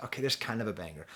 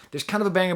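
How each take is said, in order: First: Softer, fast throwaway concession; quiet aside. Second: Higher, louder restatement; emphatic. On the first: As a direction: mutter it as a quick concession. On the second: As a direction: insist on it with a push. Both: Shown as a demonstration.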